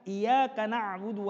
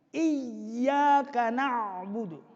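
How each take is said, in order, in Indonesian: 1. Y pada iyyaka itu tunggal dan pendek. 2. Y pada iyyaka itu dobel dan ditahan. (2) "tanda tasydid pada ya"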